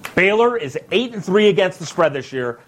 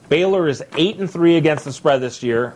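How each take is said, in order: First: It is said excitedly, with more energy. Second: It is said calmly, without much energy.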